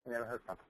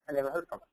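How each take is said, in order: First: Quiet repeat. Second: Said in the usual way. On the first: Real, not acted. Speaker repeating the disappointing outcome to the audience, much softer.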